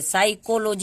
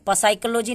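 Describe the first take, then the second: First: The word starts directly with an s sound. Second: The word starts with a p sound before s. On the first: The speaker calls it right. "साइकोलॉजी इसको पढ़ते हैं" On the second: The speaker calls it wrong. "पसाइकोलॉजी नहीं पढ़ते हैं"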